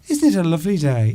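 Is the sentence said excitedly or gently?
gentle. It is said calmly in a gentle tone. The speaker is simply remarking on the nice day. "if you want to say it in a gentle way"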